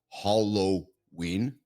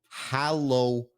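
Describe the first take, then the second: First: The first syllable sounds like 'hol'. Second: The first syllable sounds like 'hal'. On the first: The speaker calls it wrong. "not Halloween. There's no H O" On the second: The speaker calls it right. "Look at the spelling. Halloween"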